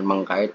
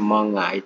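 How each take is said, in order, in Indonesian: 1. Bunyi k setelah meng dipertahankan. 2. Bunyi k setelah meng dihilangkan. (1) "bukan mengkait" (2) "tapi mengait"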